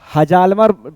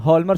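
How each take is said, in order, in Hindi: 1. J की ध्वनि H के बाद उच्चारित होती है। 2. J की ध्वनि पूरी तरह छोड़ दी जाती है। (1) "हजालमर पढ़ा जाएगा" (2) "लेकिन हॉलमर सचाट इसको बोला जाता है। ये जे साइलेंट है"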